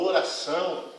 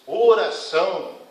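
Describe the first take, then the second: First: Said in the usual way. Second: "Oração" drawn out slowly and louder; slow, weighty stress on "Oração"; emphatic repetition. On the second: Real, not acted. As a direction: hit "Oração" firmly, stretching it to a falling end. Repeats the word for emphasis.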